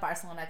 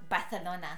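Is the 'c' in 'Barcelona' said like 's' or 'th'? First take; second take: s; th. First: The 'c' is said as a plain 's' sound. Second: The 'c' is said as a lisped 'th' sound. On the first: The speaker calls it wrong. "That's not how you pronounce it" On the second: The speaker calls it right. "There you go"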